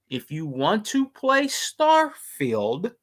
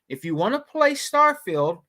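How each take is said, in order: First: It is said slowly and deliberately. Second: It is said at a normal speaking speed.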